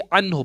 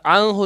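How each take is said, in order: First: The n sound is pronounced clearly and distinctly. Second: The n sound is blurred and not pronounced clearly. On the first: The speaker calls it right. "बल्कि अन हो पढ़ूंगा" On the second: The speaker calls it wrong. "नहीं पढ़ूंगा"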